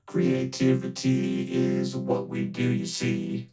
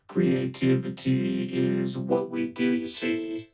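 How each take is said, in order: Both takes have the same delivery.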